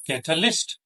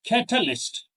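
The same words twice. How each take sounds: First: Catalyst rising onto a stressed LYST; wrong stress. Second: Catalyst with CAT high, then falling; correct stress. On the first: Teacher showing learners the mistake, last syllable stressed in catalyst. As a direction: move the stress to the end of catalyst. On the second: Teacher modelling correct word stress, CAT stressed in Catalyst. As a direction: hit the first syllable of Catalyst high. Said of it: "with the correct stress". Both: Shown as a demonstration.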